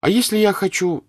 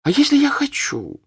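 First: Put-on high, loud girlish voice pressing her point; a stubborn young girl demanding her way; girlish insistence. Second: Put-on much higher, louder, with a childish whine; a teenage girl repeating herself to defy her mother; defiant girl. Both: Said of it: "сказала Наташа".

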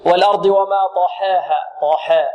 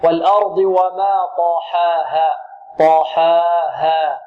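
First: "طحاها" with the fatha tilted toward e; mistaken imala. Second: Slow recitation, pure open aa in "طحاها"; correct open fatha. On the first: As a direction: demonstrate the error: bend the aa after ha in "طحاها" toward ee. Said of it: "لا نقول". ("طحاها" بإمالة الفتحة خطأً) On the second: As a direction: stretch "طحاها" with a light ha and no tilt toward e. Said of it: "لا،". ("طحاها" ببطء دون إمالة الفتحة) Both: Shown as a demonstration.

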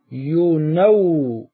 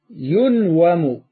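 First: ينوم drawn out as "yu-naw-mu"; vowel shifted back. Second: ينوم drawn out as "yun-wamu"; underlying passive form. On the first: Teacher shows how the word becomes, very slow "yu-nawmu". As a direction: stretch naw in ينوم, the a now on the n. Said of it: "انقل حركة الواو". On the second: Teacher shows the form before the change, slow "yun-wamu". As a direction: hold the n of ينوم closed, then wamu, very slowly. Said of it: "نريد أن نأتي باسم المفعول". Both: Shown as a demonstration.

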